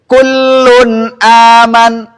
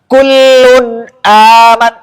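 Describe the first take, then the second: First: The nasal hum flows freely through the nose. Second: The nose is pinched, muffling the nasal hum. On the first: The speaker calls it right. "ini saya baca dengan tidak menutup hidung" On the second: The speaker calls it wrong. "ketika makhotnya ditutup"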